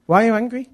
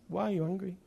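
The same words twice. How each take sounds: First: Higher, louder imitated wife; challenging question. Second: Softer, gentle imitated wife; soft question. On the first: Wife challenging her angry husband, high and loud. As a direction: put the question to him insistently. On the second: Wife answering her husband's shouting, softly. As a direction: ask it quietly after the outburst.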